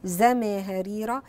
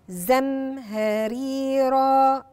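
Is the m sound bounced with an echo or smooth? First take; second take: bounced; smooth. First: The m sound gets a short echoing bounce. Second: The m sound flows smoothly without a bounce. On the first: The speaker calls it wrong. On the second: The speaker calls it right.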